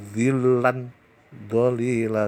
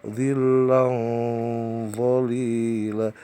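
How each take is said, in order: First: "zillan zalila" with a clear n, not hidden; wrong reading. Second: "Zillam zalila" with the nasal hummed into m before "zalila"; correct reading. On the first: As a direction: say "zillan" with a plain n before "zalila". (bacaan salah "zillan zalila" dengan nun jelas) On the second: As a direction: say "Zillam" slowly, nasal held, then "zalila". (bacaan benar "Zillam zalila" dengan dengung) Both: Shown as a demonstration.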